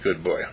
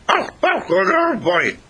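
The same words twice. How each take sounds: First: Said in the usual way. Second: High, loud, howled dog imitation; talking dog. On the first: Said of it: "it sounded something like". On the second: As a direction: yowl the words like a dog trying to speak. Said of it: "And the dog goes".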